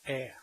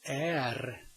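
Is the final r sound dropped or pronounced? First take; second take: dropped; pronounced. First: The word ends without an r sound. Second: The word ends with an r sound. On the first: "you just say ä" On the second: "The next one is är"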